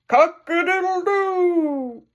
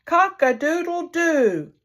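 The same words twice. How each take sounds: First: High, slow full rooster crow; the rooster shows how it's done; real rooster crow. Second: Higher, slow trying crow, less like a bird; a man trying to crow like the rooster; man's attempt at crowing. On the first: Acted. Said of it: "Now listen to me". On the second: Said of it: "Listen to me try it".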